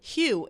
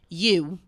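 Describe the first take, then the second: First: The name starts with an h sound. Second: The name starts without an h sound. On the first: The speaker calls it right. "Mom, no Hugh" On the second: The speaker calls it wrong. "she's just like so so New Jersey that she says you"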